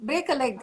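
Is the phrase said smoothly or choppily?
smoothly. The phrase is said smoothly as one unit. The speaker calls it right.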